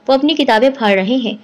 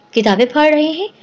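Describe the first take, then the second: First: Said in the usual way. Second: A mild, higher astonished question; surprised echo. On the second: Acted. Friend on the phone, amazed at the news, asking back in surprise. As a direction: repeat it in disbelief. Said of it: "حیرت سے کہا".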